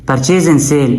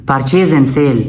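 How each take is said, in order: No difference in how they are said.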